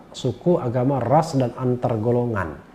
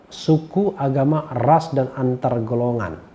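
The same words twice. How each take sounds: No difference in how they are said.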